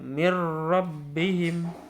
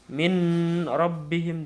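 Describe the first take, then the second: First: The n merges fully into the following r. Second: The n is clearly sounded before the r. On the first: The speaker calls it right. "Dimasukkan tanpa dengung" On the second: The speaker calls it wrong. "Bukan min rabbihim atau min rabbihim, tidak"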